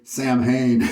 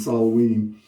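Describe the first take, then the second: First: It is said as spelled, sam-hane. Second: It is said as sow-win. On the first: It is how the shop staff say it. The speaker calls it wrong. "They actually say Sam Hain" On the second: It is the traditional pronunciation. The speaker calls it right. "the true pronunciation Solween"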